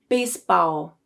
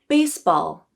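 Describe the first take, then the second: First: It ends with an O-like vowel sound. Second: It ends with a dark L sound. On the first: The speaker calls it wrong. "the substituted O sound" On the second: The speaker calls it right. "with the correct dark L"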